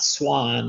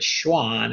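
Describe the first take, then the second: First: It is said like the bird name swan. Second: It is said unlike the bird name swan. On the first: The speaker calls it wrong. "it's not swan like the bird" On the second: The speaker calls it right. "but Schwann, it's a man's name"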